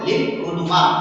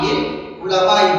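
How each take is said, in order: First: The last word is said uluma, ending in 'a'. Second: The last word is said ulamai, ending in 'i'. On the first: The speaker calls it wrong. "লিল উলুমা হবে না" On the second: The speaker calls it right. "লিল উলামা ই হবে"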